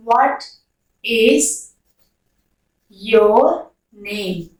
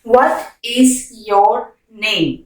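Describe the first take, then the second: First: Spaced words with a falling end; one word at a time; word by word question. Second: Slow and smooth, the pitch dropping on name; slow teaching question. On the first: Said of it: "word-by-word question". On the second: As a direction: ask it slowly in one phrase. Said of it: "slow repeat". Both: Shown as a demonstration.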